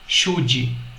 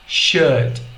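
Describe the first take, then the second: First: It sounds like Portuguese chute, ending in d-vowel. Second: It ends in a very soft d, no vowel. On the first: The speaker calls it wrong. "como se estivesse dizendo chute com D" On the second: The speaker calls it right. "A pronúncia correta é should"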